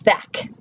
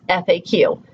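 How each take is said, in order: First: It is said as a single word. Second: Each letter is said separately. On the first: "as a word acronym as pronouncing it F A Q" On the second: "most of society says F A Q"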